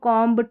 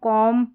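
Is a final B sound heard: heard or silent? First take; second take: heard; silent. First: A B sound follows the final M. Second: The word ends on the M sound. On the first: The speaker calls it wrong. "इस तरीके से नहीं पढ़ना" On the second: The speaker calls it right. "इस तरीके से पढ़ना है"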